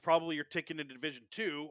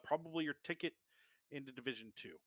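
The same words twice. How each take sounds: First: It is said in a put-on character voice. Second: It is said in a plain, ordinary voice. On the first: The speaker calls it right. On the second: The speaker calls it wrong.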